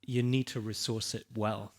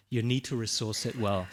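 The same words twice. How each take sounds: The two takes are said the same way.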